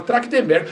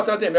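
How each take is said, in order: First: Trachtenberg with a hard k, "Trak-tem-ber-gui"; naive mispronunciation. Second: Said in the usual way. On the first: Shown as a demonstration. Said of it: "Eu não falava Trachtenberg". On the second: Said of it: "eu falava Trachtenberg".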